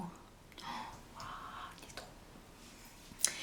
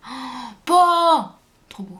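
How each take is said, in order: First: Chuchoté. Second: Émerveillée. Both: Real, not acted. Admire son maquillage terminé.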